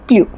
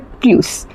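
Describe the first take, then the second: First: The final s sound is dropped. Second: The final s sound is pronounced. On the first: The following adverb does not start with a vowel. "Vowel से स्टार्ट नहीं होगा तो हम प्रोनाउंस करेंगे प्लू" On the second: The following adverb starts with a vowel. "Vowel से स्टार्ट हो तो हम इसको प्रोनाउंस करेंगे प्लस"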